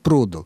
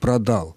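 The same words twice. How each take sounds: First: The stress is on the first syllable. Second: The stress is on the second syllable. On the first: "ударение на приставке" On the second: "ударение на коренном гласном"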